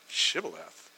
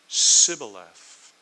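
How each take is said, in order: First: The first sound is sh, Gileadite style. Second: The first sound is s, Ephraimite style.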